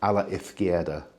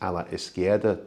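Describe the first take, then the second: First: The z is said like th. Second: The z is said like s. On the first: This is how people in Madrid say it. "a Castilian Spanish speaker will pronounce the Z as a th" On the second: This is how people in the Canary Islands say it. "here in the Canaries we pronounce it almost like an S"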